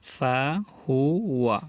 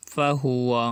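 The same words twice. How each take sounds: First: ফাহুয়া stretched very slowly, each sound held; drawn out. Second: Said in the usual way. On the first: Shown as a demonstration. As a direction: drawl ফাহুয়া out for learners. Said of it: "teacher drawls then repeats". (ফাহুয়া খুব টেনে ধীরে ধীরে) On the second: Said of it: "quick plain repeat after drawl".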